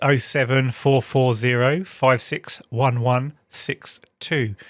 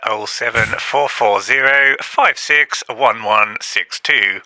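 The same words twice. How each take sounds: First: It is said in a normal voice. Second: It is said in a put-on voice.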